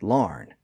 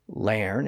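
First: The vowel sounds like 'ar'. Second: The vowel sounds like 'air'. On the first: This is the newer pronunciation. "both the air and R pronunciations existed side by side" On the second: This is the older pronunciation. "both the air and R pronunciations existed side by side"

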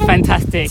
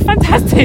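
First: The word is swallowed and held back, half-mumbled. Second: The word is said with big, exuberant enthusiasm. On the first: The speaker tries to suppress the excitement. "So you chew up, like, your words" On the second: The speaker lets the excitement out freely. "my brain wants to go fantastic"

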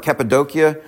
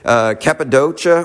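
First: The name has the local regional pronunciation. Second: The name has the usual English pronunciation.

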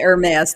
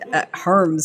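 First: The name is said with two syllables. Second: The name is said with one syllable. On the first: This is not how the person says his own name. "he doesn't pronounce it Hermes" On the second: This is how the person says his own name. "He pronounced it Herms"

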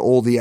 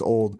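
First: The word is said with two syllables. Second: The word is said with one syllable. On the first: "Some people pronounce it oldie" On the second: "I think it would still be pronounced old"

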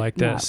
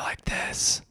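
First: It is spoken in a normal voice. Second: It is spoken in a whisper. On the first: "but now I'm normal" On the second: "I was at a whisper like this"

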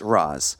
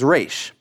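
First: The name ends with a z sound. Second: The name ends with an sh sound. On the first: This follows the Arabic pronunciation. "the Arabic way of saying this name is Raz" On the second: This follows the Hebrew pronunciation. "The Hebrew way of saying this name is Raish"

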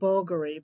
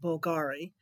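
First: The name is said the local, Italian-style way. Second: The name is said in an anglicized way. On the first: This is how the people there say the name. "they pronounce it Bulgari" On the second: This is the speaker's own preferred way of saying it. "so I pronounce it Bulgari"

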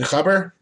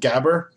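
First: The word starts with a guttural throat sound. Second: The word starts with a hard g sound. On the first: The speaker calls it right. "I think he said khabber" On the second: The speaker calls it wrong. "pronounced at least incorrectly in North America as gabber"

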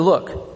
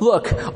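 First: It is said in a plain reading voice. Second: It is said in a whiny, childish voice.

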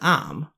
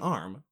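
First: The word is said in a Boston accent. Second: The word is said in a plain accent. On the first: "to me, that's like a Boston accent. When he was like" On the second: "And I'm saying arm"

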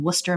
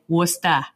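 First: Worcester is said in a non-local way. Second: Worcester is said in a local Massachusetts accent.

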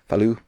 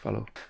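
First: The final vowel is an 'oo' sound. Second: The final vowel is a clear 'oh' sound. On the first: The speaker calls it right. "they always pronounce an O with kind of a U sound" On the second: The speaker calls it wrong. "they don't say follow"

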